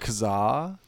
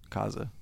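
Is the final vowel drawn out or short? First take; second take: drawn out; short. First: The second A is pronounced fully. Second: The second A is left out.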